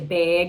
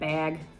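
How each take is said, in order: First: The word is said in a Minnesota accent. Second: The word is said in a plain accent.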